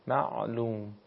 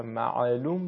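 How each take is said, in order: First: معلوم with a vowelless ayn, ma'-lum; ayn with sukun. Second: معلوم with a stray vowel on the ayn, ma'alum; vowelled ayn, mistaken. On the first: Teacher modelling for students, ayn held still without a vowel. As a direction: close the first syllable of معلوم on the ع. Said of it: "به این صورت باید تلفظ بشه". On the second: Teacher showing what to avoid, ayn wrongly given a vowel. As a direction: let the ع in معلوم slip into an extra vowel. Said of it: "حرف حرکت پیدا نکنه". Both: Shown as a demonstration.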